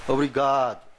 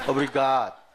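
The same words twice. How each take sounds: The two takes are said the same way.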